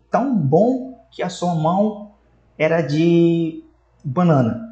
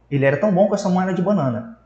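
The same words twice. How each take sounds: First: Slow, mock-admiring tão bom que a sua mão era de banana; ironic praise. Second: Said in the usual way. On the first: Shown as a demonstration. Teacher acting out an ironic remark about a bad goalkeeper, slow and mock-admiring. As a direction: savour the fake praise, then land the punchline slowly. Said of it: "Então eu fiz uma ironia". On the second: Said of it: "Ou seja".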